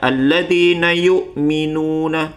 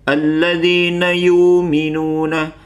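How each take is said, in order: First: A glottal stop is heard before 'minuna'. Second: The glottal stop is dropped and the vowel lengthened. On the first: "terdapat hamzah sukun" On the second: "lafaz hamzah sukun ini dihilangkan atau ditiadakan"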